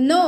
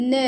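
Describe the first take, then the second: First: "no" with a pure Telugu ఓ; Telugu-style no. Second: "No" with a drawn-out gliding vowel; native-speaker no. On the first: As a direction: say "no" on one unchanging vowel, no glide. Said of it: "no అంటాం". ("no" Telugu ఓ తో పలకడం) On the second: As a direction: glide the vowel of "No" into rounded lips. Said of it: "వాళ్ళు ఎలా pronounce చేస్తారు". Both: Shown as a demonstration.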